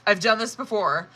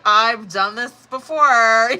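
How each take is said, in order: First: Said in the usual way. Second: Slow, louder tired sigh of a line; weary exasperation. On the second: Retold or imitated. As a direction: drag it out, fed up. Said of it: "'Cause it's like".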